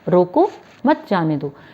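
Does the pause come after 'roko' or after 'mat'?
after roko. The pause comes right after 'roko'.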